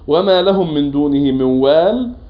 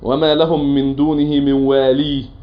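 First: The last word ends on a bare 'l' consonant. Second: The last word ends with a long 'ee' vowel. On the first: This follows the other reciters' pausal reading. "قراءات غير ابن كثير على ذلك" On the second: This follows one reciter's pausal reading. "بقراءة ابن كثير"

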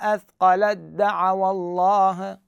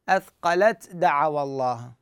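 First: The t is dropped into a doubled d. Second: The t is pronounced separately before the d. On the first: The speaker calls it right. "من اللام انتقل لمن؟ للدال، بعد التاء تحذف" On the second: The speaker calls it wrong. "ما أقول أثقلت دعوى الله، لا"

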